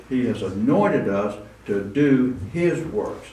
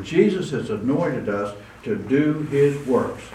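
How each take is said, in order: First: "anointed" carries the weight, "He" stays light; stress on anointed. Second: "Jesus" hit first and hardest, the rest falling away; stress on Jesus. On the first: Preacher repeating the line to the congregation, stressing anointed. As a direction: lean into "anointed". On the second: Preacher driving home to the congregation who anoints them, stressing Jesus. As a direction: punch "Jesus", then fall off. Repeated line, stress shifts. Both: Acted.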